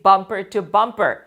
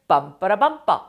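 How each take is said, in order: First: The word 'to' is said clearly and fully. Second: The word 'to' is reduced to a quick 'ra'.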